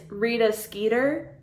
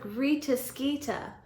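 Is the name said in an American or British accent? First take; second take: American; British. First: The name is said in an American accent. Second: The name is said in a British accent. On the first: The speaker calls it wrong. "in an American accent" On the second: The speaker calls it right. "I like how it's like"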